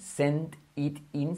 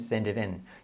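First: Each word is said separately and distinctly. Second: The words run together into one linked chunk.

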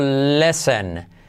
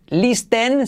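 First: The T sound is silent in the word. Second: The T sound is pronounced in the word. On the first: The speaker calls it right. "no deberías ni debes pronunciar la letra T" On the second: The speaker calls it wrong. "que no vas a decir listen"

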